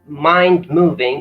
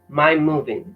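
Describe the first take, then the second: First: The d at the end of mind is pronounced. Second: The d at the end of mind is dropped. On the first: "mind moving is pronounced as my moving" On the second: "pronounced as my moving"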